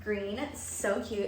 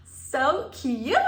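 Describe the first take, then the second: First: Said in the usual way. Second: High, loud gushing; excited squeal. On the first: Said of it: "admiring outfit". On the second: Real, not acted. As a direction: squeal with delight. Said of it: "squeals over shoes".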